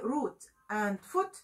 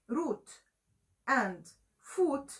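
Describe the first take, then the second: First: Foot has a different vowel from root. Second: Foot takes the same vowel as root. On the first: "But if I say root and foot, they don't rhyme" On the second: "If I say root and foot, they rhyme"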